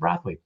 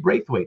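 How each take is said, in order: First: The first vowel sounds like the one in 'bath'. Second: The first vowel sounds like the one in 'braid'. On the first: The speaker calls it wrong. "I always said Brathwaite" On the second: The speaker calls it right. "it should be Braithwaite"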